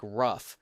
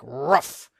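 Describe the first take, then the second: First: Said in the usual way. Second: Overdone doggy "rough", loud and rising; too much bark. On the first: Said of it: "can't be too much like rough". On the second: Shown as a demonstration. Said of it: "it can't be too, like, rough".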